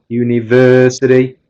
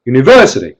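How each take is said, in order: First: "university" with a lengthened, even "ver"; longer stress only. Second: "university" said short with "ver" punched; sudden accent on "ver" in "university", no stretching; louder stress only. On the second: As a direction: hit "ver" in "university" hard but keep it quick. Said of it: "Try getting louder without going longer". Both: Shown as a demonstration.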